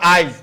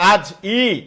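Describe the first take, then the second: First: The i vowel comes before the j sound. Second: The i vowel comes after the j sound. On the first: "জয়ের আগে চলে আসছে" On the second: "এই রস্বইটা জয়ের পরে উচ্চারণ করো"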